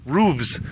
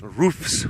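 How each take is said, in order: First: "roofs" said as "rooves"; plural with V. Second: "Roofs" with a crisp f-s ending; plural with F. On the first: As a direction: voice the ending of "roofs" to a v-z sound. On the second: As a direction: keep the f in "Roofs" voiceless. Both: Shown as a demonstration. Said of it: "whatever the plural of roof is".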